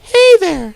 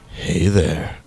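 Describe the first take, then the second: First: It is said in a put-on child's voice. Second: It is said in a voice unlike a child's.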